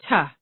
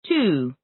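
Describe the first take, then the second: First: The word has a reduced, weak vowel. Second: The word has a full, clear vowel.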